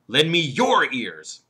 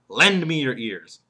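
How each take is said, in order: First: The stress falls on the word your. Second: The stress falls on the word lend. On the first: Give your own ears, not someone else's. "What about the third word, your?" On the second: The listeners should give their attention. "The emphasis there is lend"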